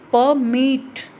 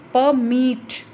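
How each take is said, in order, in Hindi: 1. Stress दूसरे syllable पर है। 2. स्ट्रेस दूसरे सिलेबल पर है।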